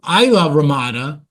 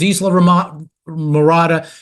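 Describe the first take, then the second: First: The name is said as Isla Ramada. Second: The name is said as Isla Mirada. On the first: This is how local people say it. "People pronounce it locally" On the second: This follows how the name is written. "it says Isla Mirada"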